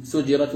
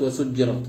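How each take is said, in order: First: سجرت with a single, unstressed jim: sujirat; light reading. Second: وسجرت with doubled jim: wa-sujjirat; doubled reading. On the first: Teacher showing the first of two Quranic readings, light سجرت. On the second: Teacher showing the second Quranic reading, doubled jim in وسجرت. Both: Shown as a demonstration. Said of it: "بالتخفيف والتشديد".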